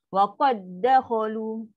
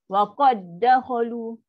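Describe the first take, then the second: No difference in how they are said.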